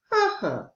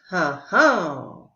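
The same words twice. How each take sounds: First: Huh-huh with the first beat high and hit, the second falling away; strong-weak hummed rhythm; stress on first beat. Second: Huh-huh with the second beat stressed, said slowly; weak-strong hummed rhythm. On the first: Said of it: "All of the others were pronounced". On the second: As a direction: hum huh-huh with the weight on the second syllable. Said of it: "with the stress on the second syllable". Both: Shown as a demonstration.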